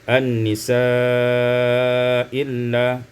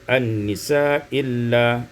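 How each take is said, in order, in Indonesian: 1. Vokal panjang ditahan dengan panjang sedang. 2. Vokal panjang hanya ditahan sebentar.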